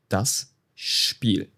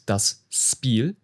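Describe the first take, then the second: First: Spiel begins with an sh sound. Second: Spiel begins with a plain s sound. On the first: The speaker calls it right. "it's das Spiel ... it's S H P" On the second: The speaker calls it wrong. "It's not das Spiel"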